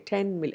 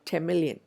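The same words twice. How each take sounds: First: The n of ten stays a clear n. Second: The n of ten blends toward an m. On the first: The speaker calls it wrong. "We don't say ten million" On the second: The speaker calls it right. "the n sound gets closer to m"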